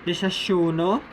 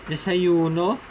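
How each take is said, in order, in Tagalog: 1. Ang katinig ay parang English na sh. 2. Ang katinig ay parang English na y. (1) "The S H-like sound" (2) "The Y-like or the letter I-like sound"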